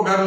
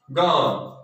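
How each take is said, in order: First: गर्ल with the R voiced, like "garl"; wrong sounded R. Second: गर्ल with no R, like "gaal"; silent R. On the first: Teacher showing the mistake, गर्ल with a sounded R. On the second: Teacher modelling a common word, गर्ल with silent R. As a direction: drop the R in गर्ल, lengthen the vowel. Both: Shown as a demonstration. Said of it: "इसको गर्ल नहीं बोलेंगे".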